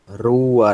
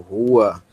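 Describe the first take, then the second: First: The r is strongly trilled and vibrating. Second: The r is soft, without a trill. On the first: The speaker calls it right. "É o som mais vibrante" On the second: The speaker calls it wrong. "Não o nosso R inicial, nem o nosso R R"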